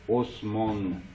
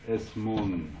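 Both takes have the same delivery.

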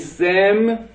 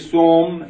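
First: The vowel after s is i. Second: The vowel after s is u. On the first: "حرکت همزه رو میدی به سین" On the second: "حرکت همزه رو میدی به سین"

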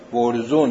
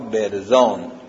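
First: The final vowel is an 'oo' sound. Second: The final vowel is a long 'aa' sound. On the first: This is the local dialect form of the word. "برزون میگن تو محل ما" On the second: This is the standard form of the word. "ما میگیم به اصطلاح برزان"

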